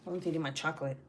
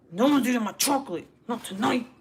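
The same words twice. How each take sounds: First: Said in the usual way. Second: Loud, higher-pitched declaration; defiant outburst guarding your chocolate; emphatic warning. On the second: Real, not acted. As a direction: lay down the law at full voice. Repeats warning, raising voice.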